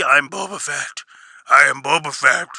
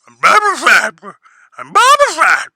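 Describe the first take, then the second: First: Lightly mocked repetition of "I'm Boba Fett" in a put-on voice; a hint of a self-important bounty hunter. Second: "I'm Boba Fett" swelling much higher and louder into a mocking shout; mock him shouting his name ever louder; mock Boba Fett, building. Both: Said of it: "Bro, you're telling everybody who you are".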